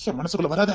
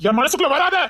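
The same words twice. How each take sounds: First: Low, soft, pleading to herself; quiet inner plea. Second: Higher, urgent repeat of the plea; rising plea. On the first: Torn girl begs him softly to stay out of her heart. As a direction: hush it like a secret plea. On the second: Torn girl begs him aloud, higher and urgent. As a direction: lift it into open begging. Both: Acted.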